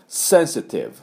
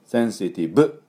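First: "センシティブ" as English sensitive, higher, ending in a buzzed V. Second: "センシティブ" in Japanese syllables, ending on a hard "bu"; katakana B ending. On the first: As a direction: say "センシティブ" with hissed S and final V. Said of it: "と変化するってやつですね". (「センシティブ」の語尾を英語のVで) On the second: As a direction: say "センシティブ" evenly with B instead of V. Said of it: "でありますね". (「センシティブ」の語尾を日本語の「ブ」で) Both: Shown as a demonstration.

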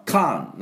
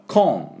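First: カーン with a wide-open American "ah"; American-style カーン, as "kahn"; American vowel. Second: コーン with a rounded British "o"; British-style コーン, rounded vowel. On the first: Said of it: "アメリカとイギリスの違い". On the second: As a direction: say コーン from the back of the throat, as "kon". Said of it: "これ同じなんです". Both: Shown as a demonstration.

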